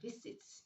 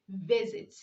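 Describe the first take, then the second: First: The middle S is voiceless, like an S. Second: The middle S is voiced, like a Z. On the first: The speaker calls it wrong. "not visit" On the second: The speaker calls it right. "You say visit"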